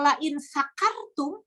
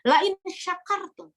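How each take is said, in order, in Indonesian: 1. Kata kedua dimulai dengan bunyi 's' biasa. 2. Kata kedua dimulai dengan bunyi 'sh'. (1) "yang bacanya keliru" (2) "Itu pakai shin yang mana? Shin"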